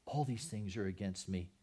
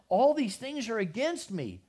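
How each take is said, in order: First: "All these things are against me" said low and soft, defeated; quiet lament. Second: "All these things are against me" cried out high and loud; anguished cry. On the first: Preacher echoing Jacob's grief, quiet and broken. The loss of another child. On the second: Jacob crying out to his sons, loud lament. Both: Acted.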